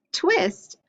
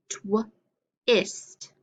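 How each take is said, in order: First: "Twist" in one piece, much higher; blended word. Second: "Twist" split as "tw", pause, "ist"; sounded out. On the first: Teacher models putting sounds together, "Twist" blended and pitched up. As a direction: say "Twist" whole with raised pitch, no gap. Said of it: "put them together to make a word". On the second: Teacher gives sounds to echo, "Twist" split into tw and ist. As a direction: break "Twist" after the "tw" and leave a gap. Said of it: "echo the sounds that I say". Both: Shown as a demonstration.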